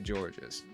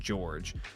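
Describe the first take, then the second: First: The name ends with an extra s sound. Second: The name ends without an extra s sound. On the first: The speaker calls it wrong. "I'm going to say Georges" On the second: The speaker calls it right. "I know it's just George"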